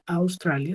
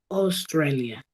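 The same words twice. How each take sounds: First: The first vowel is an 'ow' glide. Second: The first vowel is a single 'aw' sound. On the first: The speaker calls it wrong. "En inglés no sería Australia" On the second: The speaker calls it right. "sería O, Australia"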